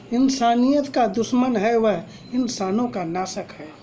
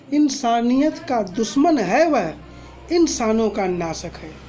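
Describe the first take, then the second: The two takes are said the same way.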